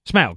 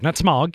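First: The vowel does not sound like smog's. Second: It sounds like the word smog. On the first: The speaker calls it right. "Smaug, not Smog" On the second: The speaker calls it wrong. "not Smog. You don't breathe it in"

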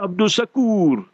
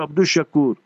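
First: The second name starts with an s sound. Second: The second name starts with an sh sound. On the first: The speaker calls it wrong. "they landed here with a scene. So it's wrong" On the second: The speaker calls it right. "So it's Sheen, we must change it back to Abdul Shakur"

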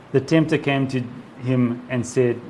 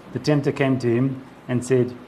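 No difference in how they are said.

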